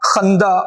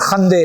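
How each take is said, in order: First: The word ends with an open 'a' vowel. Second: The word ends with an 'e' vowel. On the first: This is the Tajik and Dari pronunciation. "ये ताजिकी और दरी में अलिफ का देती है तलफ़ुज़" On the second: This is the modern Iranian Persian pronunciation. "Persian में इसका तलफ़ुज़ करते हैं बड़ी ये के बराबर"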